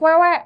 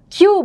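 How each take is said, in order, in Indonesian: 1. Huruf itu diucapkan seperti 'kwe'. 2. Huruf itu diucapkan seperti 'kyu'. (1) "bukan kwewe" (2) "Q bukan kwewe"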